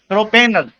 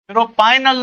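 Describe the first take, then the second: First: The middle syllable sounds like 'pay'. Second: The middle syllable sounds like 'pie'. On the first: The speaker calls it right. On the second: The speaker calls it wrong.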